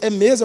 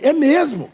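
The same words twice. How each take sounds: First: Understated, sceptical "é mesmo?"; imitated questioning reply. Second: MESMO lifted, then falling firmly; insistent "é mesmo", falling at the end; emphatic confirmation. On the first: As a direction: echo the other man's doubting question. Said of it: "Desse jeito". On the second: Retold or imitated. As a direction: answer back with a rising swell on "mesmo". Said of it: "Eu falei".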